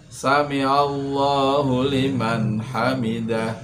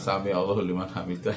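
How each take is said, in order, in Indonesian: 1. Kata-katanya diucapkan dengan jelas dan tegas. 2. Kata-katanya tidak jelas dan samar. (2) "kadang seperti ini juga saya pernah mendengar itu. ... itu tidak jelas"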